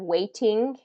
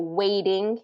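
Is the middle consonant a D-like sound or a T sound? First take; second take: T; D-like. First: The middle T is a clear T sound. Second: The middle T sounds like a soft D. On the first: The speaker calls it wrong. "instead of waiting" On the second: The speaker calls it right. "So waiting instead of waiting"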